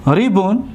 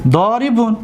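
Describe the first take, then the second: First: ضاربون in two separated pieces, first syllable held; teacher splitting ضاربون with a clear pause. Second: Said in the usual way. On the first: Shown as a demonstration. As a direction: break ضاربون into "do", pause, "ribun".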